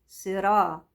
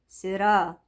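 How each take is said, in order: Both takes have the same delivery.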